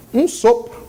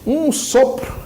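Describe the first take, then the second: First: "Um sopro" breathed out like a puff of air; "Um sopro" as a whispered breath. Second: Said in the usual way. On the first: Shown as a demonstration.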